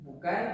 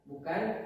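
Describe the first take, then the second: Both takes have the same delivery.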